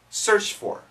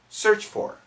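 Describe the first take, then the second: First: The t sound at the end of 'searched' is dropped. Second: The same.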